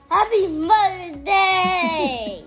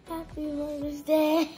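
First: It is said loudly. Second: It is said quietly.

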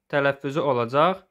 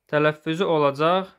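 The two takes are said the same way.

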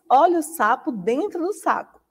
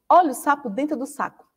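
First: The phrase is spoken slowly. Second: The phrase is spoken quickly. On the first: "A Pro vai repetir ele bem devagarzinho" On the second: "Agora a gente vai aumentar a velocidade"

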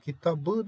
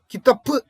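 First: The consonant before the ending is a voiced b. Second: The consonant before the ending is a voiceless p. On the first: The speaker calls it right. "Kitabı dersin" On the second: The speaker calls it wrong. "Kitapı demezsin sevgili öğrencim"

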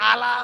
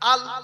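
First: The word ends on an added a vowel. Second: The word ends on the consonant l. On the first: The speaker calls it wrong. "যদি বলেন আলা, অন্যায় হলো" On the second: The speaker calls it right. "ওইটা বলেন আল। আর কিছু বলার দরকার নেই"

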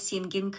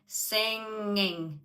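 First: The ng is followed by a hard g sound. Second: The ng ends without a hard g sound. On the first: The speaker calls it wrong. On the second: The speaker calls it right.

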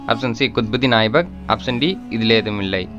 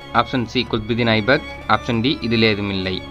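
Both takes have the same delivery.

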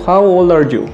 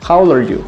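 First: It is said slowly. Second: It is said fast.

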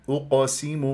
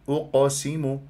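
No difference in how they are said.

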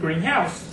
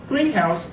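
First: The stress is on the last part, house. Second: The stress is on the first part, green. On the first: A house that is green in color. "this time, the stress is on the last part" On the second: A building where plants are grown. "So the first part of greenhouse is stressed"

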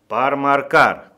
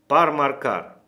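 First: It is said more loudly. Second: It is said at a normal volume. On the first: "Говорим громче" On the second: "Говорим"

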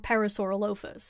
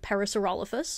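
First: It uses the nerdy, pedantic pronunciation. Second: It uses the everyday, common pronunciation.

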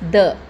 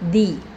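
First: The word ends in a short 'uh' vowel. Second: The word ends in a long 'ee' vowel. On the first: The next word starts with a consonant sound. "The will be pronounced as the with words that start with a consonant sound" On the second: The next word starts with a vowel sound. "The will be pronounced as the with words that start with a vowel sound"

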